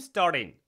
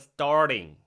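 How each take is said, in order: First: The word ends with a plain 'n' sound. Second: The word ends with a full 'ng' sound. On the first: "I'm starting 이런 식으로 되게 많이 말한다라는 거. 그러니까 이응까지도 하고 싶은 거 아니야" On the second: "원래는 G가 들어가서 starting, starting 이응 사운드가 되는 게 맞는 건데"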